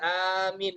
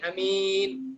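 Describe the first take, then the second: First: The first vowel is long. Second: The first vowel is short. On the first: "bisa panjang" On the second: "alifnya bisa pendek"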